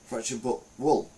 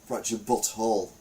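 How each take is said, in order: First: The last word sounds like 'wool'. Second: The last word sounds like 'hole'. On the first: The pun on 'butthole' is lost. The speaker calls it wrong. "But I say wool, not whole" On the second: The pun on 'butthole' comes through. The speaker calls it right. "we say whole"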